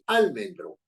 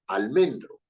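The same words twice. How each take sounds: First: The stress falls off the middle syllable. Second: The stress falls on the middle syllable. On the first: The speaker calls it wrong. "Uno no dice almendro" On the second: The speaker calls it right. "el que identifica la sílaba tónica es men"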